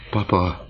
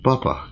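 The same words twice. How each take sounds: First: A mild first call of papa; first cry. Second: Papa cried much higher and sharper; the second papa rises into a real cry; shouted cry. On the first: Daughters first call out to their father, mild. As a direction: call Papa, still held back. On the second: Daughters cry out to their raving father, high. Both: A narrator's reading. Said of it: "kiáltotta két fiatal asszony".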